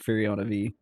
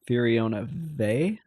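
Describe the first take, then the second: First: The last syllable is said as 'vee'. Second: The last syllable is said as 'vay'. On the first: This is how the speaker insists on saying it. "I will go to my grave saying Furiona V" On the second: This is the official pronunciation. "It's Furiona Vey. I will never say that"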